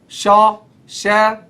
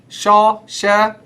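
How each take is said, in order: Both takes have the same delivery.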